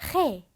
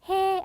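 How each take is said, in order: First: The first sound is a harsh, throaty rasp. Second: The first sound is a soft, plain breath. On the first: The speaker calls it right. "히읗 소리가 나오는 거기 때문에 해 이렇게 소리를 내주셔야 합니다" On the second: The speaker calls it wrong. "그냥 해 아니고요"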